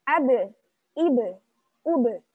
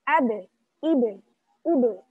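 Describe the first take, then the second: No difference in how they are said.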